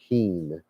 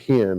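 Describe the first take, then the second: First: The vowel is long, as in 'seen'. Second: The vowel is short, as in 'hen'. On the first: The speaker calls it right. "It's heen is how you spell the word or spell pronounce the word" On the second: The speaker calls it wrong. "It's not hen like a chicken"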